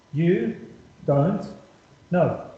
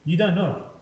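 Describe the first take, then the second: First: You, don't, know, each word set apart by a pause; "You ... don't ... know" with a clear pause after every word. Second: Said in the usual way. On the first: Shown as a demonstration. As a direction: spell it out slowly, one word at a time for emphasis.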